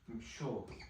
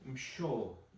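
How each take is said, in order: First: The consonant after m is an sh sound. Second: The consonant after m is an sh sound.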